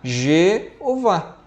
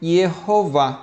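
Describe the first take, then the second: First: The name starts with a zh sound. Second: The name starts with a y sound. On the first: "se você trocar o I pelo J" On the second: "então ficaria Yehová"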